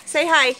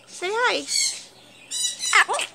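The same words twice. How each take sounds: First: Said in the usual way. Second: Higher, softer sing-song; soft high coax. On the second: Real, not acted. Owner softly coaxing her parrot to talk. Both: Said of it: "coaxing parrot to say hi".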